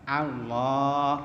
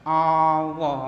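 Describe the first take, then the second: First: The first vowel is an open 'a' sound. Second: The first vowel is a rounded 'o' sound. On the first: The speaker calls it right. "jadi kalimatnya benar A" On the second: The speaker calls it wrong. "bukan Allah"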